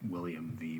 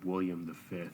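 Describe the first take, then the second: First: The V is read as the letter V. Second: The V is read as the ordinal fifth. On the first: The speaker calls it right. "instead of William V" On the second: The speaker calls it wrong. "it said William the Fifth"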